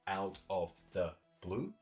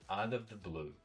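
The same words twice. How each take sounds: First: The words are kept separate, not linked. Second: The words are linked together smoothly. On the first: The speaker calls it wrong. "instead of saying out of the blue" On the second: The speaker calls it right. "oftentimes we link them together"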